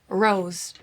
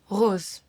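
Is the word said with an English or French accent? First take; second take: English; French. First: It is said with a plain English R. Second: It is said with a soft French throat R.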